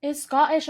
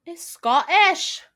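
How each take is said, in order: First: "Scottish" punched higher and louder; stress on Scottish. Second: "Scottish" drawn out slow, high and loud; stress on Scottish. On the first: Insisting to cohost he is Scottish, punchy stress. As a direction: hit "Scottish" firmly. Repeating with emphasis. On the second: Stressing that the actor is Scottish, slow and loud. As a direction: lean hard on "Scottish", stretched. Stressing Tennant's true nationality. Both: Real, not acted.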